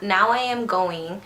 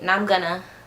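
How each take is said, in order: First: Each word is pronounced fully and separately. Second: The words are reduced and run together. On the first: "Instead of saying" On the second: "I always say, ... I slur my words"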